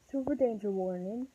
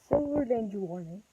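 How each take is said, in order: Both takes have the same delivery.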